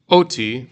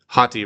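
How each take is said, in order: First: The word starts directly with a vowel. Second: The word starts with a breathy h sound. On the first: The speaker calls it wrong. "this word here is not oti" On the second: The speaker calls it right. "you're going to aspirate before you read it"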